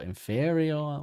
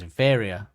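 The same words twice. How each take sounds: First: The word is drawn out and lengthened. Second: The word is said at its usual length. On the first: "makes it stretch it out" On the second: "is probably how most people say it"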